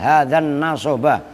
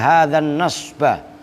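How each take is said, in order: First: A short vowel sits between s and b. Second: The s runs straight into the b.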